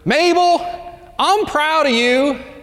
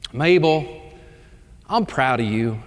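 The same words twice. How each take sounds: First: It is said as loudly as possible. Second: It is said at a normal, soft volume.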